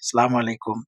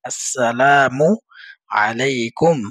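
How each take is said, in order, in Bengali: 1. এটা 'sa' দিয়ে শুরু, আর 'salam' দিয়ে শেষ। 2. এটা 'as' দিয়ে শুরু, আর 'salamu' দিয়ে শেষ। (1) "একটা হরফও আপনার শুদ্ধভাবে উচ্চারণ হয় না" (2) "শুদ্ধ করে শিখব"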